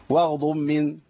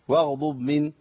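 No difference in how they are said.

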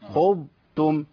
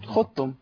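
First: The ض is kept distinct before ت. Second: The ض is fully merged into ت. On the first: The speaker calls it right. "اقول ايه؟" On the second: The speaker calls it wrong. "يبقى عمل ادغام كامل مع التاء"

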